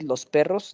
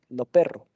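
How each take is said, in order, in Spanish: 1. Las s finales se pronuncian. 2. Las s finales se omiten. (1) "En vez de decir" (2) "se aspira por completo, se- desaparece la S al final de una sílaba"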